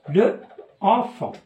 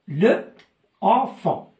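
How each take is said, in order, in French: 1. La voyelle de l'article est gardée devant le nom. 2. La voyelle de l'article est gardée devant le nom.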